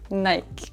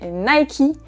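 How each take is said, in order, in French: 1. Le mot finit sur le K, sans voyelle. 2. Le mot finit par une voyelle prononcée après le K. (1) "on prononce cette marque Nike" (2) "si vous dites à un Français Nike, il ne va pas comprendre"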